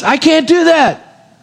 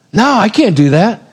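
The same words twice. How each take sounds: First: High, drawn-out protest; emphatic refusal. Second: Slightly raised, hesitant objection; mild refusal. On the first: Joseph protesting to his master's wife, emphatic refusal. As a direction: stretch it out in high-pitched protest. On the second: Joseph first turning down Potiphar's wife, mild refusal. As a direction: turn it down without force. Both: Acted.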